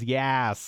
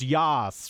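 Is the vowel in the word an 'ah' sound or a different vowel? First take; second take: different; ah. First: The vowel is not an 'ah' sound. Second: The vowel is an open 'ah' sound. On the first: The speaker calls it wrong. "I thought it was Yas, and that didn't sound so great" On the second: The speaker calls it right. "I got the ah right. It's Yas, right?"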